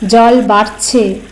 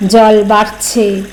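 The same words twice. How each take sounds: The two takes are said the same way.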